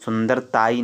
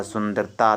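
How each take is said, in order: First: "सुंदरताई" with an extra ee ending; wrong form demonstrated. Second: "सुंदरता" ending on long taa; correct form demonstrated. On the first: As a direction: end "सुंदरताई" on taa-ee. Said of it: "सुंदरताई नहीं होता". ("सुंदरताई" के अंत में ई जोड़कर) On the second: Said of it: "सुंदरता तक ही होता". ("सुंदरता" अंत में केवल ता) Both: Shown as a demonstration.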